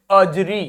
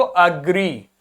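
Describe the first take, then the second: First: अजरी said "uh-jree", with a j; j in place of g. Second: अग्री with a hard g, "uh-gree". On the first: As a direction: swap the g for a j: अजरी. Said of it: "और मान लीजिए इसका pronunciation लिखा होता". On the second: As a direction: say अग्री with g, never j. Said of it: "जी लिखा है, मतलब आप बोलेंगे". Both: Shown as a demonstration.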